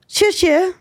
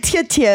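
First: Each word begins with a 'ch'-like sound. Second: Each word begins with a 't'-like sound. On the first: The speaker calls it right. "She never says it as well as she just did right there" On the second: The speaker calls it wrong. "normally I say tia tia"

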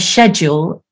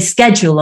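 First: It is said the British way. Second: It is said the American way.

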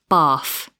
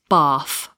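No difference in how they are said.

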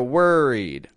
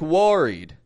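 First: The first vowel sounds like er. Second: The first vowel sounds like o. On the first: The speaker calls it right. "I'm getting it like an er" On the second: The speaker calls it wrong. "I'm not pronouncing the O in worried like worried"

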